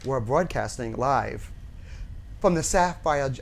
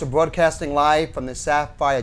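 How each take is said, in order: First: The phrase is spoken slowly. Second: The phrase is spoken quickly. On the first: "this is my slow version" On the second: "you're always like say it so fast"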